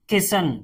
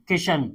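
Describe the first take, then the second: First: किशन with 's' in place of 'sh'; pronounced with S. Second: किशन with a clear 'sh' sound; pronounced with SH. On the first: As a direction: say किशन as 'kisan', plain s in the middle. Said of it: "के I एस A N". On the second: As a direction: say किशन as 'kishan', sh in the middle. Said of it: "के I एस एच A N". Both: Shown as a demonstration.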